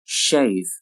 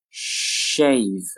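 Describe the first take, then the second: First: Said in the usual way. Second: "Shave" with a long held sh; slow careful "Shave"; drawn-out model. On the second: Shown as a demonstration. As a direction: stretch "Shave" out for learners. Teacher models word slowly, then normally.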